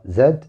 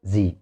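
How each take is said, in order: First: Z said "زد", zed with a final d; British-style "زد", rhyming with bed. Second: Z said "زي", zee with a long ee; American-style "زي", rhyming with see. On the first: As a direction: say "زد" the British way, ending in d. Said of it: "لهجة بريطانية". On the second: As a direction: say "زي" the American way, no final d. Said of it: "امريكان انجلش لهجة امريكية". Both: Shown as a demonstration.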